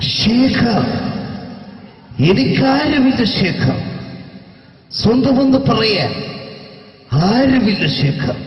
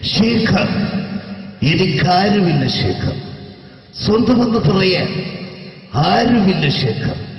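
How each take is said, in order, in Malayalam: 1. അനുകരിച്ച ശബ്ദം വളരെ അതിശയോക്തിപരമാണ്. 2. അനുകരിച്ച ശബ്ദം കുറച്ചു മയപ്പെടുത്തിയതും നിയന്ത്രിതവുമാണ്. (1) "ഈ ടൈപ്പ് അല്ല" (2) "ഇത്ര അത്ര ഇല്ല ഇങ്ങനെയാണ്"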